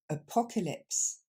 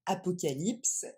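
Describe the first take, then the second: First: Apocalypse with the a's reduced to weak "uh"; reduced vowels. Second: Apocalypse with full French "a" sounds. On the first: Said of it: "on va remplacer ces A par le son E". (apocalypse avec les a remplacés par le son e) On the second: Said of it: "ça va pas se dire comme en français". (apocalypse à la française) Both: Shown as a demonstration.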